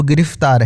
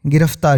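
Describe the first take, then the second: First: गिरफ्तार said gi-rif-taar, short i in second syllable; original pronunciation. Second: गिरफ्तार said gi-raf-taar, short a in second syllable; everyday form of गिरफ्तार with an "af" middle; current pronunciation. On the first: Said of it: "मूल शब्द जो है वो". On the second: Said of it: "आज के चलन में". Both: Shown as a demonstration.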